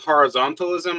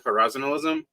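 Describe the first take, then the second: First: The T in the middle is clearly pronounced. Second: The T in the middle is dropped. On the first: "Instead of saying horizontalism" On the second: "I don't normally pronounce the T"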